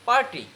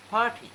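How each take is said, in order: First: পার্টি with a plain P and sounded R; local usual pronunciation. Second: পার্টি with a puff on P and no R; aspirated P, silent R. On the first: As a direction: say পার্টি as "par-ti", R pronounced. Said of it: "আমরা বলি না". (পার্টি, প আর র স্পষ্ট করে) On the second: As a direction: say পার্টি as "phaa-ti". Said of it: "পির sound হবে তোমার ফ". (পার্টি, র ছাড়া ফাটি) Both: Shown as a demonstration.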